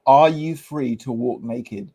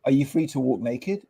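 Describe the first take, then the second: First: "Are" stressed at the front, the question slowed down; pointed repeated question. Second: Said in the usual way. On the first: Retold or imitated. Retelling his challenge to the interviewer, pointed stress on "Are". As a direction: lean on "Are", spacing the words out slowly. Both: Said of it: "comes out with this classic thing".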